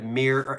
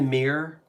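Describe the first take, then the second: First: The first syllable sounds like 'mih'. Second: The first syllable sounds like 'meer'. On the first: The speaker calls it right. "instead of mirror" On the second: The speaker calls it wrong. "look in the mirror instead of mirror"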